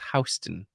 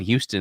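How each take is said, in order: First: It is pronounced the New York way. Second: It is pronounced the Texas way. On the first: This is how New Yorkers say the name. "but it's Houston" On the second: This is the name of the city in Texas. "what we call Houston out here in Texas"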